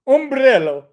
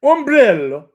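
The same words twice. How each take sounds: First: Ombrello said again, rolled r, stress on "brel"; Italian word. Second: Ombrello with a rolled r, stress on "brel"; Italian word. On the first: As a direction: repeat Ombrello like an Italian, loud and proud. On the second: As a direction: say Ombrello the Italian way, ending in a clear o. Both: Shown as a demonstration. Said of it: "how do you say umbrella in Italian".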